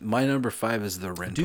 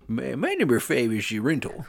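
First: It is said in his ordinary speaking voice. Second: It is said in an exaggerated, put-on comic voice. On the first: "I was going to do a whole voice" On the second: "It's like it's a mix of like Adam Sandler and the comic book guy from The Simpsons"

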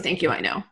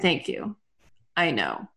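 First: It is said with no pause between phrases. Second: It is said with a pause between phrases.

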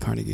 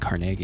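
First: Carnegie is pronounced the New York way. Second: Carnegie is pronounced the local Pittsburgh way. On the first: The speaker follows New York usage. "as a New York person, you say Carnegie because of Carnegie Hall" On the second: The speaker is a local of the area. "if you're from Pittsburgh, you say Carnegie"

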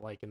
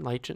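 First: It is pronounced like lycan, the werewolf word. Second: It is pronounced as the plant name lichen. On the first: The speaker calls it wrong. "not lichen. That's the werewolf" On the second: The speaker calls it right.

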